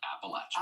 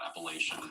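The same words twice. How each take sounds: First: It uses the pronunciation locals prefer. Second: It uses the pronunciation locals objected to. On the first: The speaker calls it right. "say it the way they like to say it" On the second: The speaker calls it wrong. "I said that just like that"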